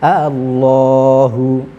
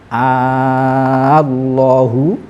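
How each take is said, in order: First: The second hamzah is softened, between hamzah and alif. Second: The second hamzah becomes a long 'a' vowel. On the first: "boleh dibaca tashil" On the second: "boleh dibaca ibdal"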